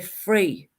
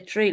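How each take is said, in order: First: The th sounds like an f. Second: The th sounds like a t.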